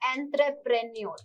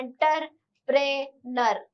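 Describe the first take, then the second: First: The word begins 'entre' and ends with 'nyoor'. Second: The word begins 'enter' and ends with 'ner'. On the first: The speaker calls it right. "ये इसका सही क्या है? उच्चारण है।" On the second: The speaker calls it wrong. "ये last वाला नर जैसे प्रोनाउंस हुआ है ... एंटर है।"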